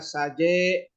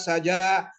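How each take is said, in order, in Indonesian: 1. Vokal akhirnya bergeser ke arah bunyi e. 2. Vokal akhirnya adalah bunyi a terbuka.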